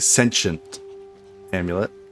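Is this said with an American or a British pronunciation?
American. It is said with an American pronunciation. "But as Americans say"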